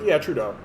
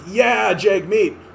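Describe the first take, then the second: First: It sounds half-hearted and lukewarm. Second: It sounds genuinely enthusiastic.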